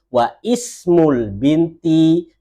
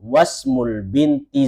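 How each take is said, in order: First: A glottal stop is pronounced before ismul. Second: The glottal stop is dropped, linking into wasmul. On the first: The speaker calls it wrong. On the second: The speaker calls it right. "seakan-akan hamzanya tidak dibaca"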